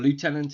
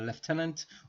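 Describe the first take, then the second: First: It is said the American way, like lootenant. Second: It is said the British way, like leftenant.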